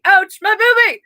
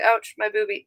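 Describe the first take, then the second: First: High-pitched exclaimed ouch; loud exclamation. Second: Said in the usual way. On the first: Real, not acted. Reader repeats ouch about own sore chest, loud exclamation. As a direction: cry it out high, playing up the pain. Repeats the pain cry, louder.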